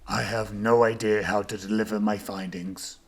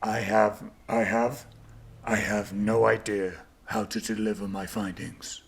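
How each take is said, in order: First: It sounds sincere, but less earnest. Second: It sounds more earnest and heavily sincere. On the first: "[name] sounded very sincere" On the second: "Can you do that more sincere?"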